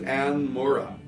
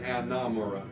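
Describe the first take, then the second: First: The first name ends without an added vowel. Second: The first name ends with an added vowel. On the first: The speaker calls it right. "Her name is Anne Mura" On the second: The speaker calls it wrong. "because it has a better cadence, I tend to say Anna Mura"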